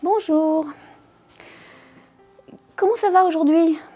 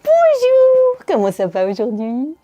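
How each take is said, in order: First: It sounds disgusted. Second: It sounds patronizing, as if to a child.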